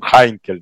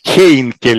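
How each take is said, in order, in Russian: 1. Первый слог звучит как 'hai'. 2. Первый слог звучит как 'hey'. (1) "Хайнкель на самом деле по-немецки" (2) "Хейнкель у нас произносится"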